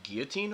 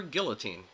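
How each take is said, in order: First: Put-on "guillotine" as GEE-uh-teen; pronounced without L. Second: Put-on "guillotine" as GILL-uh-teen; pronounced with L. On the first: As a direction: silent L in "guillotine". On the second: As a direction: clear L in "guillotine". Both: Shown as a demonstration. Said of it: "how would you pronounce that word".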